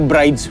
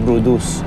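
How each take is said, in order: First: It is said as one syllable, like 'brides'. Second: It is said as two syllables, like 'broodus'. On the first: This is how the spelling reads. The speaker calls it wrong. "pag binasa mo, bride's whale siya" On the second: This is the proper pronunciation. The speaker calls it right. "Pero ang pronunciation, Brodus"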